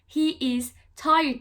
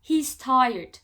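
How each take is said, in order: First: He is is said as two full words. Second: He is is contracted to one syllable. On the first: "He is tired demek yerine" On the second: "he's tired diyoruz"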